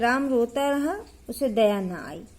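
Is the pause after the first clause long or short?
short. A short pause comes after the first clause. The two clauses are only loosely separated. "अब अगर इसको मैं पढ़ती ऐसे, ... तब हम यहाँ अल्प विराम देते हैं"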